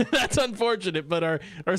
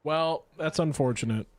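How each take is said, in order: First: Laughing it out; chuckling the words through. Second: Said in the usual way. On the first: Real, not acted. Repeats it laughing.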